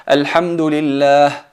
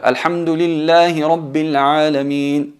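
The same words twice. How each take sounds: First: Louder, drawn-out "Alhamdulillah" with a full stop after it. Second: Slow, louder recitation of "Alhamdulillahi Rabbil Alamin" in one run; elongated recited verse without a pause until Alamin; go back and continue. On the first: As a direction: recite "Alhamdulillah" and halt on the long last syllable. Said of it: "Podemos marcar la parada en". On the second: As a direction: link Alhamdulillahi straight into Rabbil, long held "Alamin". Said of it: "No, hay que volver". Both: Shown as a demonstration.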